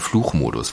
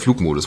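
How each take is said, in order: First: The middle consonant is a ch sound. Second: The middle consonant is a hard g sound. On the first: The speaker calls it wrong. "Da darf nicht dieses Rheinische so rein, dass man sagt" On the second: The speaker calls it right. "Oder der Flugmodus, muss ich natürlich sagen"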